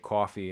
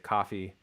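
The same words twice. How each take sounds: First: The first vowel is a rounded 'aw' sound. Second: The first vowel is an unrounded 'ah' sound. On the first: "So I would say coffee" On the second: "a Californian might say coffee"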